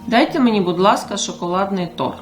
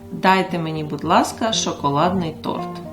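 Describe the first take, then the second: First: It is said at normal speed. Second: It is said slowly.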